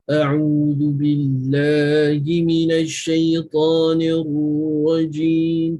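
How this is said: The voice is deep and pushed from the belly. It is the fuller melodic recitation style. "Kalau murattal"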